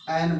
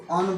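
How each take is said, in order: First: "एन" with a full open e before n; full-vowel "एन", not un; strong form. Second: "अन" with a schwa before the n; weak "अन", uh plus n; weak form. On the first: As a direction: say "एन" as a clear an, vowel unreduced. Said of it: "strong form में". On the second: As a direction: say "अन" as reduced un, for the article an. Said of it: "एन को क्या बोला जाता है". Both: Shown as a demonstration.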